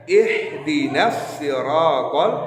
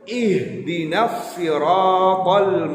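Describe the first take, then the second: First: The s in siratal sounds thin and light. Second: The s in siratal sounds thick and heavy. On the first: The speaker calls it wrong. "Kalian membacanya" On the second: The speaker calls it right. "Tebal tipisnya suatu huruf"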